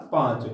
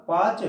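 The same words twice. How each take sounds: First: "पांच" with a nasalised long vowel; with chandrabindu. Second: "पांच" said as पाच, no nasal; without chandrabindu. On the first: Teacher adds chandrabindu for students, "पांच" with nasal vowel. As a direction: let the vowel of "पांच" sound through nose and mouth. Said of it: "यदि चंद्रबिंदु लगा जाए तो उच्चारण होगा". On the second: Teacher repeats for students, "पांच" as oral पाच. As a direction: drop all nasality from the vowel in "पांच". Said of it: "इसका उच्चारण होगा". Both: Shown as a demonstration.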